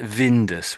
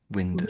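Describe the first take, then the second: First: The word begins with a V sound. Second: The word begins with a W sound. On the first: The speaker calls it wrong. "It's still a bit like Vindus when you're saying it" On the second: The speaker calls it right. "we probably say Windus"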